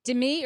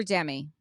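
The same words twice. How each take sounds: First: Demi said duh-MEE; second-syllable stress. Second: Demi said DEM-ee; first-syllable stress. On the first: Co-host asking how a cast member's name goes, Demi as duh-MEE. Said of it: "Is it Demi or Demi?". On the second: Co-host offering the other version of a name, Demi as DEM-ee. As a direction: say Demi as DEM-ee, with a short e up front. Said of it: "it can be pronounced both ways". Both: Shown as a demonstration.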